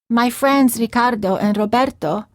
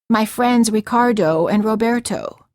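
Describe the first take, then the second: First: The names have a native Spanish accent. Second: The names have an American accent.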